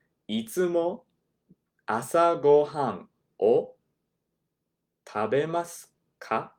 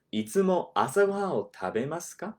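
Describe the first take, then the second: First: "いつも 朝ごはんを 食べますか?" said slowly, chunk by chunk, with pauses; ゆっくり区切って. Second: "いつも朝ごはんを食べますか?" said quickly at native pace; 自然な速さで; natural speed. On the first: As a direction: break it into slow pieces so they can copy. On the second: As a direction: say it fast, the way a native would. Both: Shown as a demonstration. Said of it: "I'll do it slowly".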